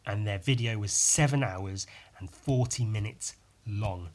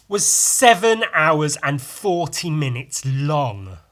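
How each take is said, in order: First: Said in the usual way. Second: Slow, loud, stressing seven; incredulous. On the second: Real, not acted. Telling viewers about a huge video, incredulous stress. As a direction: lean on "seven" in disbelief.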